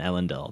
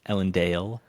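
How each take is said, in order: First: The last syllable has a short vowel. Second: The last syllable has a long A vowel. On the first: The speaker calls it wrong. "the short A that I've been" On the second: The speaker calls it right. "has a long A"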